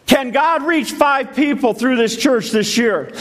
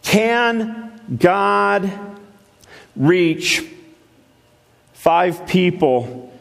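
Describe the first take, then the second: First: Asked high, at full preaching force; repeating the question with fire this time; raised preaching question. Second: Can God, reach, five people, spaced out slowly; slow measured question. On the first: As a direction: lift it up and preach it. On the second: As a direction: drop each phrase in with pauses. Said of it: "Let me ask you something". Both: Real, not acted.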